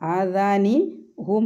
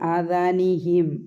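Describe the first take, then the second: First: The final syllable is said with a 'u' vowel. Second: The final syllable is said with an 'i' vowel. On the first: The speaker calls it wrong. "ആദാനി ഹും എന്ന് പറയൂല" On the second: The speaker calls it right. "പറയാനുള്ള സൗകര്യത്തിന് വേണ്ടി ആദാനിഹിം"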